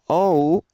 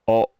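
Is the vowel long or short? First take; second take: long; short. First: The vowel is drawn out long. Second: The vowel is kept short. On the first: The speaker calls it wrong. "not quite as long as the English O. Instead of saying oh" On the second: The speaker calls it right. "when you say oh in Japanese, it's short"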